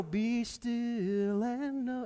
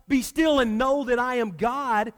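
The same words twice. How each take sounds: First: Slow, soft and hushed, like a familiar verse; the comforting version, spoken slowly and softly; soft reverent reading. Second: Said in the usual way. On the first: Shown as a demonstration. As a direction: breathe it gently as a calm promise. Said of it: "It's not". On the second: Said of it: "It's more Moses saying".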